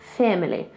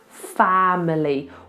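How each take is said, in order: First: The first vowel is tight, almost like eh. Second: The first vowel is a wide open ah. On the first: This is the Queen's controlled, elegant way of speaking. "she goes family, almost like it's an E" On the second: This is how most people in Britain say it now. "it's much more common nowadays to hear in Britain, ah, family, wide ah"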